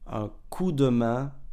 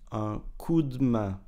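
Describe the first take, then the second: First: The vowel in 'de' is pronounced. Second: The vowel in 'de' is dropped.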